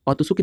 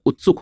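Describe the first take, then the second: First: औतुसुक opening on "au", with an extra u after the t; mispronounced word. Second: उत्सुक in two syllables, short u first; correct pronunciation. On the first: Teacher showing students the misspelt option, औतुसुक said as au-tu-suk. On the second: Teacher correcting the option for students, उत्सुक said as ut-suk. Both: Shown as a demonstration. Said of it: "औतुसुक नहीं तो उत्सुक होता है".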